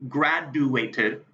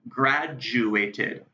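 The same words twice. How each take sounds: First: The middle sounds like a plain D. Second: The middle sounds like a J. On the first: The speaker calls it wrong. "I don't say graduated" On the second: The speaker calls it right. "when I say the D U, I will make a J U sound"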